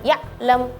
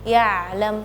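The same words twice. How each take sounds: First: The middle sound is abrupt, like a jump. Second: The middle sound is soft and smooth. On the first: The speaker calls it wrong. "jangan ya'lam. Nah, tadi seperti ngeloncat gitu" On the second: The speaker calls it right. "harusnya ya'lam, yang lebih soft lagi"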